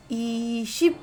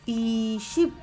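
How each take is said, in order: Both takes have the same delivery.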